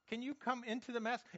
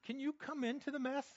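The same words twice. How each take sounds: First: The same plea, half-laughing; laughing repeat. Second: Higher, pleading plea to the Lord; pleading prayer. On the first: Preacher repeats his prayer to the congregation, laughing. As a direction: laugh as you ask it again. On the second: Praying to the Lord from the mess, pleading. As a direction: ask it like a desperate prayer. Preacher acts out a desperate prayer. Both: Pretend.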